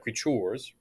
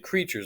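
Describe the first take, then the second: First: The stress is on the second syllable. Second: The stress is on the first syllable. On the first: The speaker calls it wrong. "not creatures" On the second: The speaker calls it right. "we say creatures"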